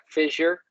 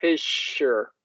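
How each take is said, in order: First: Fissure with a voiced zh in the middle; soft zh sound. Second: Fissure with a voiceless sh, slowly split; sh sound. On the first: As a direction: say fissure as FIZH-er. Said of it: "there's a distinction in the sound". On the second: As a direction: say fissure as FISH-sure. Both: Shown as a demonstration.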